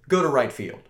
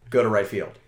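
First: It is said more loudly. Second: It is said at a moderate loudness.

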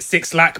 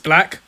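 First: The name starts with the word six. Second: The name is said as one word, black. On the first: The speaker calls it wrong. "I always pronounce it Six Lack" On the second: The speaker calls it right.

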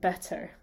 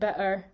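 First: The middle consonant is a T made with the tongue. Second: The middle consonant is a glottal stop in the throat. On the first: "Like the T, that takes a lot of movement from your tongue" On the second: "just in your throat, that's such a nice short sound"

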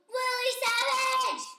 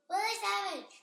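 First: It is said with very high excitement. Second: It is said with toned-down energy.

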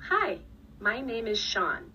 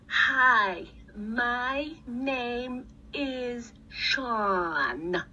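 First: It is said in a normal, natural way. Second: It is said in an exaggerated, overdone way.

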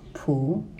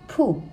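First: The pitch rises from mid to high. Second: The pitch falls sharply from high.

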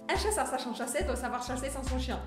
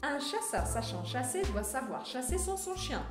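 First: The sentence is spoken very quickly. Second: The sentence is spoken at a moderate pace. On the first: "velocidade extra" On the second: "um pouquinho mais rápido"

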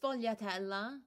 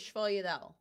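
First: The word is said in full, with every syllable. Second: The word is clipped, with the final vowel dropped. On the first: This is the standard Italian way of saying it. "I know it's sfogliatella" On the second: This is the familiar family way of saying it. "people get mad that I say shvoyedel"

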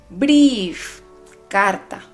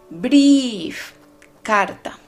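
No difference in how they are said.

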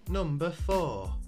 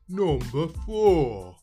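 First: It is said in a natural speaking voice. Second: It is said in an exaggerated put-on voice. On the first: The speaker calls it wrong. "when I announce the numbers in my normal voice, I sound like an altar boy" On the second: The speaker calls it right. "I am going to be doing that stupid voice again"

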